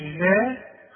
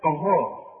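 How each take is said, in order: First: غاء slow with thin fronted vowel; wrong light ghayn. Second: غاء with a thick, emphatic gh; heavy ghayn. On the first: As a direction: flatten غاء to a light ghee-like "ghae". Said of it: "مش". (غاء بغين مرققة) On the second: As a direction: round out غاء heavily. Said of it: "مش غاء". (غاء بغين مفخمة) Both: Shown as a demonstration.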